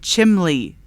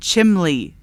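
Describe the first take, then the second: First: The word is said with an l sound. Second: The same.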